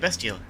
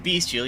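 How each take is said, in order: First: The first syllable sounds like 'best'. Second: The first syllable sounds like 'beast'. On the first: The speaker calls it right. "you say bestial" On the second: The speaker calls it wrong. "the word is beast, but just you don't say uh, beast"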